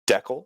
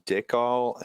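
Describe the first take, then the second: First: The word is said the Canadian way. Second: The word is said the speaker's usual non-Canadian way.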